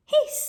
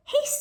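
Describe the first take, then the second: First: High, loud goose hiss. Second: Goose hiss. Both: Acted. Teacher reading to children, a high goose hiss.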